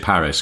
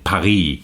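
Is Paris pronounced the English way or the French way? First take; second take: English; French. First: Paris is said with an English pronunciation. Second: Paris is said with a French pronunciation. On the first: This is the accepted local form. The speaker calls it right. "that's the English pronunciation of it" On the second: The speaker sounds pretentious. The speaker calls it wrong. "because that would sound pretentious"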